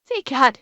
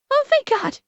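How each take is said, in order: First: Said in the usual way. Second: High relieved thank God. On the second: Real, not acted. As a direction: squeal it with relief. Relief that alerts work.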